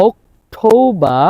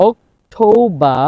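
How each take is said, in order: No difference in how they are said.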